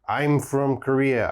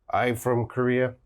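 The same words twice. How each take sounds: First: The M sound after 'I' is clearly heard. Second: The M sound after 'I' is missing. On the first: The speaker calls it right. "I have to hear this M sound" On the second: The speaker calls it wrong. "That is bad grammar"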